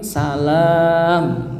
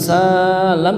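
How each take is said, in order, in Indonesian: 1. Vokal setelah l itu panjang. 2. Vokal setelah l itu pendek. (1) "yang panjang lamnya itu" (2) "bukan salam"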